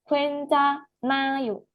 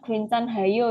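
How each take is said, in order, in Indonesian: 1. Huruf n langsung tersambung tanpa h. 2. Bunyi h dibaca di tengah. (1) "Tapi Kencanayo" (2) "Bukan Kencan hayo ya"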